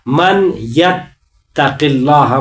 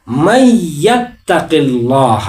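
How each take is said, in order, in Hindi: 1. n को y से पहले अलग से बोला जाता है। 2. n दोहरी y की आवाज़ में मिल जाता है। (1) "मन में नून और फिर यत में या" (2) "मन यत्तकिल्लाह को हम पढ़ेंगे मई"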